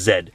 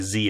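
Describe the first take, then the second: First: The letter is said the Canadian way, zed. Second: The letter is said the American way, zee.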